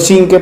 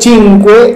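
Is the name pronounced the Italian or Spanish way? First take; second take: Spanish; Italian. First: The name is pronounced the Spanish way. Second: The name is pronounced the Italian way. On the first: "pronunciado acá en español" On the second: "pronunciado en italiano"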